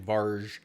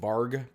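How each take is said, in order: First: The word ends with a soft j sound. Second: The word ends with a hard g sound. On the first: The speaker calls it right. "but it's actually Varj" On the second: The speaker calls it wrong. "usually that's a hard G"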